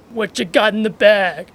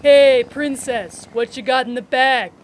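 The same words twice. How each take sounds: First: Lightly voiced catcaller; imitating a sleazy catcall. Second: Leer it out like a catcaller. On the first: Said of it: "if you do the voice". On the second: Acted. Catcaller voice greeting S0.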